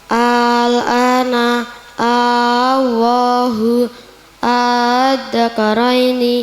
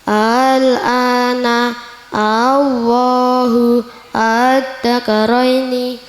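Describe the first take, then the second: First: The hamza becomes a long drawn-out vowel. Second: The hamza is softened between hamza and alif.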